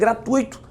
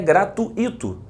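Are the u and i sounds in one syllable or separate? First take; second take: one; separate. First: The u and i join in one syllable. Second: The u and i are split into two syllables. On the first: The speaker calls it right. "é gratuito. Não há um hiato aqui, há um ditongo" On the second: The speaker calls it wrong. "a palavra aqui não é gratuito"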